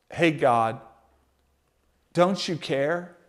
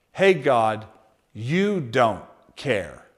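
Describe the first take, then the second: First: Soft hurt question rising on "care"; questioning plea. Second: Low, slow, flat accusation "you don't care"; bitter accusation. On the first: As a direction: ask "Hey, God, don't you care?" as a wounded question. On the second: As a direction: state "Hey, God, you don't care." as a quiet charge. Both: Shown as a demonstration. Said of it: "Just a little bit of those words switch in there".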